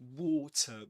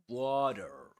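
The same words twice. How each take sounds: First: It is said with a British accent. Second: It is said with an American accent. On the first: "That's British English" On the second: "In American English"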